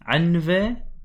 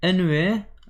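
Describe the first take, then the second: First: It starts with an a vowel and has v. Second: It starts with an e vowel and has w. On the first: This is the classical pronunciation. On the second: This is the modern dialect pronunciation.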